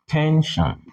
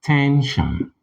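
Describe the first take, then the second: First: Tension with the tone raised on ten and falling on shin; TEN-shin, tone high then falling; stress on TEN. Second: Tension said again, ten clearly higher then falling on shin; stress on TEN. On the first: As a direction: lift the pitch on ten, drop it on shin. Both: Shown as a demonstration. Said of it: "you naturally raise your tone on ten".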